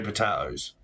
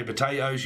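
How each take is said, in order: First: "potatoes" as puh-TAH-toes. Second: "potatoes" as puh-TAY-toes. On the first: Reader giving your side of a disagreement, "potatoes" as puh-TAH-toes. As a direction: say "potatoes" with an open AH in the middle. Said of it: "I say potatoes". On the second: Reader giving my side of a disagreement, "potatoes" as puh-TAY-toes. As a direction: say "potatoes" with a long AY in the middle. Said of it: "you say potatoes". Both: Shown as a demonstration.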